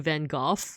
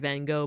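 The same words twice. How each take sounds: First: It is said with a British pronunciation. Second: It is said with an American pronunciation. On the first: "British people say Van Gogh" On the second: "I'm American, so of course I pronounce it Van Gogh"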